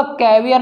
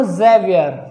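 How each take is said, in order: First: कैवियर begun with a hard K sound; wrong pronunciation. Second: जेवियर begun with a buzzing Z sound; correct pronunciation. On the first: Teacher showing students how not to say Xavier, wrong pronunciation. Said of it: "कैवियर नहीं बोलूँगा". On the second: Teacher showing students how to say Xavier, correct pronunciation. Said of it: "मैं इसे बोलूँगा जेवियर". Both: Shown as a demonstration.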